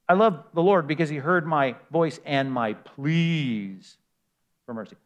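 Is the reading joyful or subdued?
subdued. It is read with a plain, subdued tone. The speaker was crying out for mercy. "But let me read it again"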